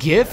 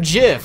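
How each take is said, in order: First: The word begins with a hard G sound. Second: The word begins with a soft J sound. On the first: "why does the letter G have to ever have the soft sound" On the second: "the correct pronunciation is obviously JIF"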